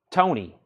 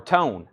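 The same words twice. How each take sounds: First: "Tony" ending in an ee sound; two-syllable Tony. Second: "Tone" with a silent final e; one-syllable Tone. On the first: Auctioneer puzzling over a band name, "Tony" said with final ee. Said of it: "I know for sure that's Tony". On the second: Auctioneer unsure of a band name, "Tone" said without final ee. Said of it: "I don't know how that's". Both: Shown as a demonstration.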